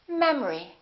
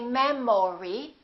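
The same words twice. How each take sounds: First: The second vowel is reduced to uh. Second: The second vowel keeps its full sound. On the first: The speaker calls it right. "The second syllable is reduced, the first syllable is stressed" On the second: The speaker calls it wrong. "We don't say memory"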